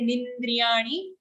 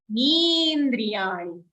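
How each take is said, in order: First: Nindriyani with a short ni ending; wrong nindriyani. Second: Nindriyani slow, first ni held long. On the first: Teacher showing the wrong nindriyani, clipped ni. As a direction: clip the final ni of nindriyani. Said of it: "don't say nindriyani". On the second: Teacher modelling Nindriyani, long ni. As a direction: lengthen the ni in Nindriyani. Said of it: "Here ni is long". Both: Shown as a demonstration.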